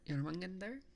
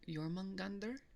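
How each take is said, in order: First: The name begins with a Y sound. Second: The name begins with a Y sound.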